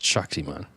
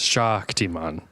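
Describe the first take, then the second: First: The 'a' vowel is short and plain. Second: The 'a' vowel is drawn out long. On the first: The speaker calls it wrong. "not just Shaktiman" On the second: The speaker calls it right. "there's two A's in it, so it's Shaktiman"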